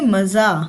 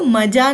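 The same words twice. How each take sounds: First: The middle consonant is a 'z' sound. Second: The middle consonant is a 'j' sound. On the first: The speaker calls it right. "इसको क्या पढ़ेंगे?" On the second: The speaker calls it wrong. "ज के नीचे dot है तो इसको मज़ा नहीं पढ़ेंगे"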